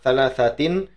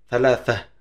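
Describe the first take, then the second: First: The word ends with a full -tin ending. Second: The word ends with a stopped -h sound. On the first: "ini sebenarnya thalathatin" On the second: "dibiasakan saja ya. Thalathah gitu"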